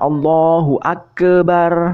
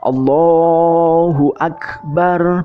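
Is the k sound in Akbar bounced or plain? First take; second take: bounced; plain. First: The k sound is released with a bounce. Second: The k sound is plain, without a bounce. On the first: The speaker calls it wrong. "bukan Allahu Akbar. Nah, jangan seperti itu" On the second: The speaker calls it right. "kaf itu dibaca Allahu Akbar"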